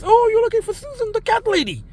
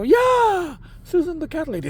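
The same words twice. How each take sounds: First: Imitating the lady. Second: Said in the usual way. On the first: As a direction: play the cheery neighbour lady, pitched way up. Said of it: "and she goes". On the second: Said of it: "And I go".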